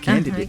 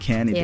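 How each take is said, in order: First: The middle D sound is pronounced. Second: The middle D sound is dropped.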